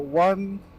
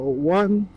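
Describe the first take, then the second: First: Open visor, with noise reduction turned off. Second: Closed visor, with noise reduction turned off.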